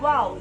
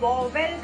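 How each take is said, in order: First: It sounds like 'vowl' with a gliding 'ow'. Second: It sounds like 'vo-vel' with a clear middle v. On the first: The speaker calls it right. "It's actually वाउल" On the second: The speaker calls it wrong. "बहुत सारे लोग इस शब्द को वॉवेल वॉवेल करते हैं, but it is not वॉवेल"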